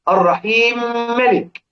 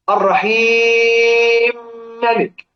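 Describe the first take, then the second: First: The vowel before the merged m lasts two counts. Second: The vowel before the merged m lasts four counts. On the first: "على 2"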